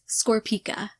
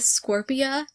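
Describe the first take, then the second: First: It ends with a k sound before the a. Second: It ends without a k sound before the a. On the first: The speaker calls it right. "when it's in fact Scorpica" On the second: The speaker calls it wrong. "I was calling it Scorpia"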